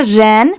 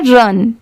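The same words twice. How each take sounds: First: रैन with an open a sound, like ran. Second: रन with a short neutral u, like run. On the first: Teacher contrasting ran with run, open a. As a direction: say रैन with the wide vowel. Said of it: "R A N को हम लोग पढ़ते हैं". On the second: Teacher contrasting run with ran, short u. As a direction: say रन short and closed. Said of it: "आर यू N को पढ़ते हैं". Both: Shown as a demonstration.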